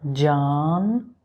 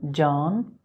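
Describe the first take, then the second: First: The word is said slowly and drawn out. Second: The word is said at normal speed. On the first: "Say again, but say slowly" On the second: "say with me"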